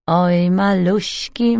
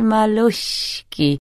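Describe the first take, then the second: First: A slow, crooning near-whisper; singsong whisper. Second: Singsong whisper. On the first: Thief crooning to the lock, slow singsong. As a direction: coo "Oj, maluśki" slowly, singsong. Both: A narrator's reading. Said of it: "wyszeptał śpiewnie".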